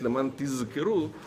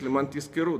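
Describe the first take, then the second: First: The second word has a clearly voiced z sound. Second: The second word has a voiceless s sound. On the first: So that you remember. The speaker calls it right. "если не подчеркнуть, не сказать леман тизкеру" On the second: So that you receive payment. The speaker calls it wrong. "то это будет звучать как леман тизкеру"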